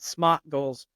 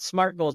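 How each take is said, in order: First: It is said in a Boston accent. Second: It is said in a standard American accent. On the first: The speaker calls it wrong. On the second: The speaker calls it right.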